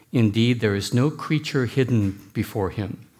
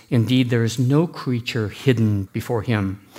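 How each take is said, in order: No difference in how they are said.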